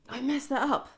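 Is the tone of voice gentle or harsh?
harsh. It is said in a harsh, critical tone. The speaker is criticising themself. The speaker calls it wrong.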